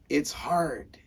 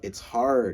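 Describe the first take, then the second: First: It is said in an upbeat, energetic tone. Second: It is said in a discouraged, heavy tone. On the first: The task is a welcome challenge. The speaker calls it right. "You got to think more like" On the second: The task feels like too much work. The speaker calls it wrong. "they're going to tell you"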